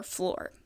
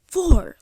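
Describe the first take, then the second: First: Said in the usual way. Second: FLOOR blurted loud and high; "floor" as a loud, drawn-out expletive; mock curse word. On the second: Shown as a demonstration. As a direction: shout "floor" as if it were a swear. Tries floor out as a swear word.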